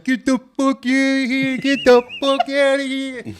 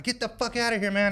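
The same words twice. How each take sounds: First: Slow, high, loud muffled yell; mock deaf woman's garbled shout; deaf mother-in-law. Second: High-pitched mock yell; raised-voice retold command; retold angry order. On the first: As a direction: holler with words blurred as through peanut butter. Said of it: "she's so deaf, every time she talks". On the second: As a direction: imitate yourself chasing off an intruder. Retold yelling at an intruder.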